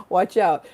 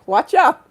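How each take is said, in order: First: Said in the usual way. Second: "out" lifted in a high rising sing-song; playful warning. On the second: Shown as a demonstration. Warning her viewers about joyous people, teasing and high.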